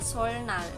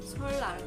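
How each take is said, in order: First: An n sound follows the first l. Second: The n is replaced by an l sound.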